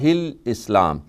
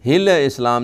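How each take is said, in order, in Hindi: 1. islam से पहले L की आवाज़ पूरी तरह स्थिर रखी जाती है। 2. islam से पहले L की आवाज़ स्थिर नहीं रखी जाती। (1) "लाम जो आती है हा के बाद वो बिल्कुल स्टिल है" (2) "हिल इस्लाम नहीं"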